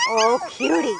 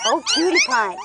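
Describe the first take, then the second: First: Said in the usual way. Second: High squeaky coo. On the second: Real, not acted. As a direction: coo it like to a puppy. Cooing over puppies.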